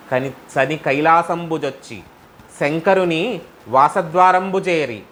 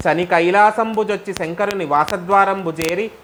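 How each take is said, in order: First: కైలాసంబుజొచ్చి said slowly, word by word, spoken not sung; slow spoken repeat. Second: సంబుజొచ్చి sung out, rising melodic intoning of the verse; chanted, intone the line like a padyam. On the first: Shown as a demonstration. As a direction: break the verse down slowly for listeners. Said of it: "slow spoken explanatory repeat". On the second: Acted.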